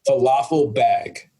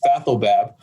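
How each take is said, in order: First: It sounds like falafel, ending in bag. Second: It is said as fathel, ending in bab. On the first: The speaker calls it wrong. "some really bad pronunciations" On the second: The speaker calls it right. "how it's pronounced"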